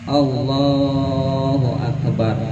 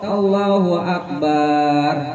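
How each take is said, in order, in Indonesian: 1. Vokal dalam 'lah' dipanjangkan. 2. Vokal dalam 'lah' pendek. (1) "panjangin lohnya biar masuk di hati niat" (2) "jangan Allahu Akbar"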